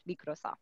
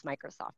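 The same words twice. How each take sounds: First: Microsoft as mee-krosoft, softly, final t dropped; daughter's pronunciation. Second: Said in the usual way. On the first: Shown as a demonstration. Mother demonstrating how her daughter says Microsoft, quietly. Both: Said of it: "That's how she says Microsoft".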